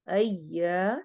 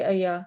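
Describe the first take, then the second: First: The y sound is held long and doubled. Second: The y sound is short and single. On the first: The speaker calls it right. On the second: The speaker calls it wrong.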